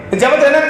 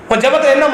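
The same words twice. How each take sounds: The two takes are said the same way.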